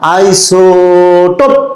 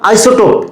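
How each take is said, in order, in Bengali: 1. Iso টানা হয় এবং শেষ p-তে ধাক্কা দেয়। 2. এটি সরলভাবে বলা হয়, শেষে কোনো ধাক্কা নেই। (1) "আইসো এখানে এক আলিফ টান দিব এবং পথে কলকলা করব" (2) "এভাবে পড়বো না"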